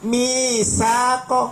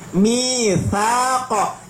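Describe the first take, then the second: First: The middle consonant is a hissing sound. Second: The middle consonant has no hissing sound. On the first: The speaker calls it wrong. "ingat bukan misaqo. Loh, salah lo ya" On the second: The speaker calls it right. "Tidak ada desis sama sekali"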